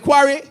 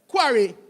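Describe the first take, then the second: First: The word is said loosely, without clear enunciation. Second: The word is said carefully, with clear enunciation. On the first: The speaker calls it wrong. "I'm sorry. I apologize" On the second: The speaker calls it right. "properly enunciate. That's better?"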